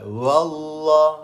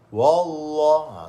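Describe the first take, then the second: First: The w is said light and thin. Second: The w is said heavy and thick. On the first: The speaker calls it right. "waw tu nipis" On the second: The speaker calls it wrong. "jangan baca tebal"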